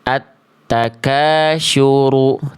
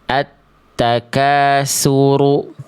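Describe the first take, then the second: First: The key consonant sounds like sh. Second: The key consonant sounds like s. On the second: "Jangan dibaca"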